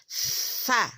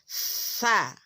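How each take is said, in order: First: The consonant is said with breath flowing out. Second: The same.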